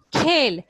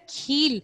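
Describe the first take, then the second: First: کھیل said khel, loud, with a long ay; loud, clear khel for کھیل, ay vowel; long ay sound. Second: کھیل said kheel, with a long ee; change the vowel in کھیل to ee, as kheel; stressed kheel for کھیل, ee instead of ay; contrasting ee sound. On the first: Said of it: "یا بڑی اے کی؟". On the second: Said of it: "اگر ہوتا ہے". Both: Shown as a demonstration.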